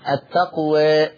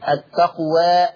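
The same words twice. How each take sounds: First: The final vowel leans slightly toward 'ee'. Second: The final vowel is a full open 'a'. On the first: "هذا هو التقليل" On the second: "هذا هو الفتح"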